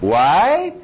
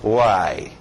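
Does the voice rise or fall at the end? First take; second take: rise; fall. First: The voice rises at the end. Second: The voice falls at the end.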